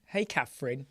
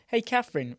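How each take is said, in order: First: Said in the usual way. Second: Higher and louder, delighted hello; excited greeting. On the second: Real, not acted. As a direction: call out to her happily. Greets viewer twice, second brighter.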